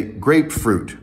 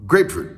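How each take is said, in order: First: "grapefruit" as two equally weighted beats, GRAPE FRUIT; equal stress. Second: "grapefruit" as GRAPE-fruit, high then falling; wrong uneven stress. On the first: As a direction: give GRAPE and FRUIT the same full weight. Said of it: "You say grapefruit". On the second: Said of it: "And you don't say". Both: Shown as a demonstration.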